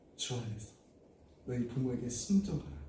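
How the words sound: It is said in a soft, warm voice. The child is being addressed lovingly. The speaker calls it right. "이렇게 부드럽게 따뜻하게"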